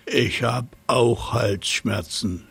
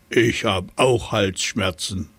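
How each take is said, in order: First: Slow, lightly voiced hippo grumble; a hint of a huffing hippo; snorting hippo. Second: Lightly voiced elephant, a hint of trumpeting. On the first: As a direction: hippo insisting it has a sore throat too, lightly snorted. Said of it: "schnaubte das Nilpferd". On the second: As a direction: say it like a mild elephant. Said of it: "trompetete der Elefant". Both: A narrator's reading.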